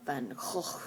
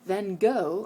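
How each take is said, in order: First: Van Gogh with a throaty Dutch h and final ch, hokh; Dutch pronunciation. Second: Said in the usual way. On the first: Shown as a demonstration. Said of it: "if you're Dutch". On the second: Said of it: "or Van Gogh if you're Dutch".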